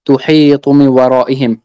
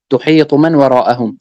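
First: "من ورائهم" with i vowels, min wara'ihim; variant reading. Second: "من وراءهم" with a vowels, man wara'ahum; variant reading. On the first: Reader giving the hadith's first reading, "من ورائهم" said min wara'ihim. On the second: Reader giving the alternative reading, "من وراءهم" said man wara'ahum. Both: Real, not acted.

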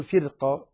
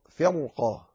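First: "فرقة" with a light, thin ra; wrong light ra. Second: "فرقة" with a heavy, full ra. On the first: Teacher showing the mistake to avoid, "فرقة" with a light ra. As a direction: say "فرقة" with the ر thinned. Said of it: "لا تقل فرقة". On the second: Teacher correcting students, "فرقة" with a heavy ra. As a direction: thicken the ر in "فرقة". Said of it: "تفخم فيها الراء". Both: Shown as a demonstration.

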